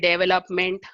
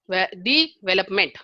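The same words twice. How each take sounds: First: No syllable is given clear stress. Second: The stress is on the first syllable.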